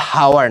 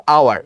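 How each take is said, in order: First: হাওয়ার with a breathy h sounded at the start; হাওয়ার with a pronounced h; wrong h in hour. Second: আওয়ার with a silent h, opening straight on the vowel; আওয়ার with no h at the start; hour said right. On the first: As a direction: show the mistake by saying হাওয়ার with an h. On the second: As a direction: say আওয়ার as ow-ar with no h sound. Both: Shown as a demonstration. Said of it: "এটা কিন্তু হাওয়ার না".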